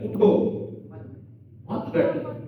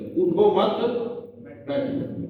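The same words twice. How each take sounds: First: The pause comes right after 'utho'. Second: The pause comes right after 'mat'.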